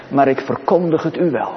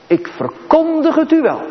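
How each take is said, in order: First: Said in the usual way. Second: Ik verkondig het u wel, pitched much higher, stress on u falling; emphatic repeat. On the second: Shown as a demonstration. Preacher proclaiming to congregation, emphatic high repeat. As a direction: repeat it soaring up, hammering u.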